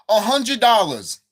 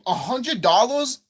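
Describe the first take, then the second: First: Loud, slow, falling "hundred dollars"; outraged repeat. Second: Slow, "dollars" rising in disbelief; incredulous question. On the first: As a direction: punch "hundred" high and loud, drop on "dollars". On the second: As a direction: stretch it out, lifting "dollars" into a question. Outraged at the bundle price. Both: Real, not acted.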